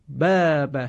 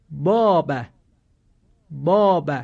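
First: باب with a thin, light long آ; correct thin aa. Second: باب with a full, heavy, thick آ; wrong heavy aa. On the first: Teacher giving the correct thin باب. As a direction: keep the آ in باب small and thin. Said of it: "باید صدای کشیدهٔ آ هم ... نازک و کم حجم". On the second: Teacher showing the wrong heavy باب. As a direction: round out the آ in باب as a mistake. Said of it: "این غلط هست،". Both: Shown as a demonstration.

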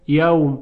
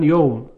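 First: یوم said as "yawm"; standard diphthong. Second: یوم said as "yowm"; dialect diphthong. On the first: Teacher gives the standard word first, یوم as "yawm". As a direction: open یوم out to an aw sound. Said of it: "کلماتی مثل یوم". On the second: Teacher shows how some Arabs say it, یوم as "yowm". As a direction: round یوم to an ow sound. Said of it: "که بعضاً میگوین". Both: Shown as a demonstration.

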